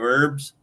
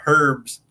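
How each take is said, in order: First: The word begins with no H sound. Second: The word begins with an audible H sound. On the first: This is how the speaker would say it. "instead of herbs" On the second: This is how the other person says it. "you were talking about herbs"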